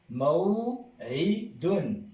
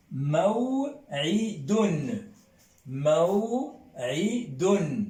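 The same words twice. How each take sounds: First: "Maw'idun" lent, coup de glotte net; mot arabe maw'idun. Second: "Maw'idun" très lent, coup de glotte avant i; étirez "Maw'idun" avec l'attaque glottale; mot arabe maw'idun. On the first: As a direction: reprenez "Maw'idun" très posément. (répétition lente de "Maw'idun") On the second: ("Maw'idun" articulé lentement) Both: Shown as a demonstration. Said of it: "Qu'est-ce que c'est que maw'idun".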